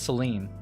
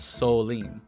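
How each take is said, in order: First: The first vowel sounds like 'eh'. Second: The first vowel sounds like 'oh'. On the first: The speaker calls it wrong. "I've been pronouncing this as Celine" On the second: The speaker calls it right. "but it's Soline"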